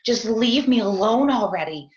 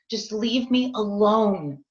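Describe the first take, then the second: First: A mild mock yell, louder; snapping at the husband on the phone in a mild mock yell; retold yell. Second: A mild mock yell, slow and drawn out; insisting to be left alone in a slow mock yell; retold yell, slower. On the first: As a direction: push the words out in a yell. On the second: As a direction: drag each word out, still yelling. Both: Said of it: "and I'm yelling".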